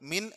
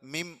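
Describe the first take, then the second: First: The word ends with an n sound. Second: The word ends with an m sound. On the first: The speaker calls it wrong. "മിൻ എന്നല്ല ഇവിടെ ഉച്ചരിക്കേണ്ടത്" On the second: The speaker calls it right. "മിം എന്നാണ്"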